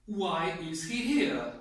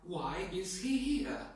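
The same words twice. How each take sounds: First: Slow, louder, annoyed question; angry. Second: Slow, mildly surprised question. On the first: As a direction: demonstrate dislike, leaning hard on the words. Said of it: "If you're angry because you don't like him". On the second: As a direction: draw it out in mild surprise. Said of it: "If you're surprised". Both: Shown as a demonstration.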